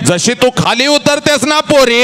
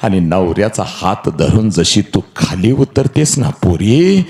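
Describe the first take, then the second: First: High ringing call; 1 preaching cry. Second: Said in the usual way. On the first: Shown as a demonstration. Preacher calling out to the bride, high and ringing. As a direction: lift the line into a soaring call. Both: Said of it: "ए".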